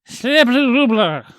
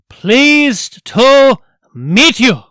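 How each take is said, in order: First: It is said quickly and slurred together. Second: It is said slowly, syllable by syllable. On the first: "or something" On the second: "in slow, deliberate syllables, like a teacher to a small child"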